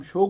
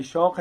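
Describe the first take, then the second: First: शौक said as "shoke", with a closed long O; wrong vowel. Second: Said in the usual way. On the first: Shown as a demonstration. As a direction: flatten the "au" of शौक to a plain "oh". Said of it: "वो गलत है". (शौक کو واؤ مجہول سے "شوک" بولیں) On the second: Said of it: "असल में शौक है".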